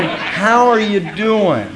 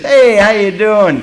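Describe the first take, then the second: First: Slow, sincere "How are you doing?" meant deeply; sincere greeting. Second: Quick throwaway "Hey, how you doing?" with no real interest; casual greeting. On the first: To a fellow member, asking and meaning it. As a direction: ask "How are you doing?" and mean every word. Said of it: "and meaning it". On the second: To passing men, a careless hello. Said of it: "kind of grabbing stuff". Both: Shown as a demonstration.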